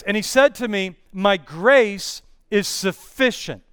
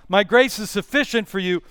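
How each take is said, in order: First: Slow, stressing grace; each word of "My grace is sufficient" slow and deliberate; slow, weighty scripture reading. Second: Said in the usual way. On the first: Shown as a demonstration. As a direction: let "My grace is sufficient" land slowly, leaning on grace. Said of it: "And he says this". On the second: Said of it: "It's the same word translated".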